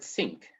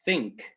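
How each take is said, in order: First: Egyptian-style "think" with s replacing the th. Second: Careful unvoiced English th starting "think". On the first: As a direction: say "think" as "sink", starting on an s. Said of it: "and the word". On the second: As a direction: say "think" with a true th, tongue between the teeth. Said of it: "The word that". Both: Shown as a demonstration.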